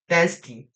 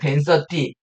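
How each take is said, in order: First: It is said with a foreign, English-style accent. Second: It is said with a plain Korean accent.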